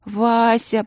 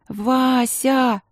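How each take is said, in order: First: Высоко и протяжно; позвать сестру с мольбой; умоляюще. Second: Высоко, с надрывом; выкрикнуть имя с мольбой; отчаянный возглас. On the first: Упрашивает сестру. (Алинка умоляет королеву) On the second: Последняя мольба. (Алинка в отчаянии взывает к сестре) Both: A narrator's reading.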